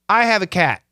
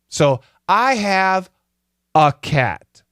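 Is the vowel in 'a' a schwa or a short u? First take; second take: schwa; short u. First: The word 'a' has a weak schwa vowel. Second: The word 'a' has a short u vowel. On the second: "short U"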